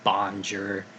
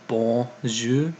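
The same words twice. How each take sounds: First: It is said with an American accent. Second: It is said with a French accent. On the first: The speaker calls it wrong. "Americans tend to butcher" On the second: The speaker calls it right. "the correct pronunciation"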